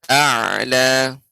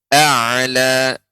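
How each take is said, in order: The two takes are said the same way.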